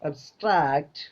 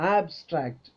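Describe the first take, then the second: First: The stress is on the second syllable. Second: The stress is on the first syllable. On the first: It is used as a verb. "ഇനി അത് verb ആകുന്ന സമയത്ത് എങ്ങനെ?" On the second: It is used as an adjective. "Abstract adjective ആണ്"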